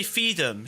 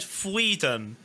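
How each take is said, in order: First: FEED 'EM said without an R; "feed 'em" with F straight into EE. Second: "freedom" with a consonant after the F. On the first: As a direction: say "feed 'em" as FEE-dum, dropping the R. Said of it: "she didn't even say". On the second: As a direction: say "freedom" as FREE-dum, sounding the R. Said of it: "She said". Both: Shown as a demonstration.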